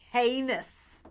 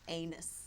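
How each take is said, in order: First: The word begins with an audible H sound. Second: The word begins with a vowel, no H.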